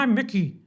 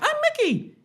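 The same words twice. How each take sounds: First: The voice is pitched very low. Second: The voice is pitched very high. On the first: "Mickey's not too low" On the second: "not too high"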